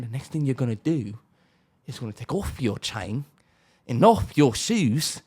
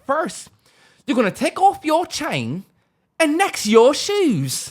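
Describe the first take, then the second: First: Low, quiet British gangster; mock British accent. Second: High-pitched mock British gangster; mock British accent. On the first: British gangster demanding chain and shoes, low mock British accent. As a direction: drop into a lightly voiced British menace. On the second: Gangster robbing a visitor in Britain, mock British accent. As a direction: put on a squeaky British accent, stretching the end. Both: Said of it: "talking in a British accent".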